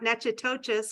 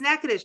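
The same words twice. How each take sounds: First: The name is said a non-local way. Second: The name is said the local way. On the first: The speaker calls it wrong. "not Natchitoches, which I would have said for years" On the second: The speaker calls it right. "And it's Natchitoches"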